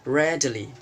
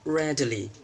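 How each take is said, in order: Both takes have the same delivery.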